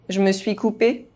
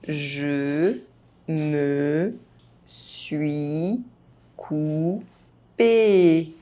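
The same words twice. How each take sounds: First: The phrase is spoken fast, sounds reduced. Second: The phrase is spoken very slowly. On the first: This is how native speakers say it. "fast, as a native speaker would do" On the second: Each syllable can be heard clearly. "very slowly"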